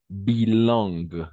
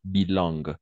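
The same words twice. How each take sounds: First: "bilingue" said slowly, nasal in as "un"; slow model word. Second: Said in the usual way. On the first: Shown as a demonstration. Teacher slowly modelling "bilingue" to the student. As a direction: draw out "bilingue", nasal un in the middle. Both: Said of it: "on va prononcer".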